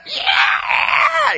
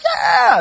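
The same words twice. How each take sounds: First: Very high, piercing imitation scream; blood-curdling scream. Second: High, raised crowd whoop; concert cheer. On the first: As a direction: scream it as an unpleasant, agonized screech. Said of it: "it's just a blood-curdling scream". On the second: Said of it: "not like in a concert where you're like". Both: Shown as a demonstration.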